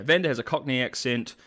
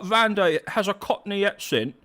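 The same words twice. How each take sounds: First: Said in the usual way. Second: High, hammed-up Cockney accent; mock Cockney. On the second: Streamer answering claims that Vander sounds Australian, mock Cockney. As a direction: put on an exaggerated Cockney voice.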